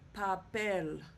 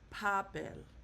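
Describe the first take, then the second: First: The stress is on the last syllable. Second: The stress is on the first syllable. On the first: The speaker calls it right. "the stress is going to go on the last syllable, which will be the E" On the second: The speaker calls it wrong. "not papel"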